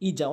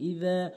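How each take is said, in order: First: The middle consonant sounds like a z. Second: The middle consonant is soft, tongue at teeth. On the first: The speaker calls it wrong. "ইজা বলে" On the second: The speaker calls it right. "ইদা বলতে হবে জিব্বার আগা দাঁতের আগা"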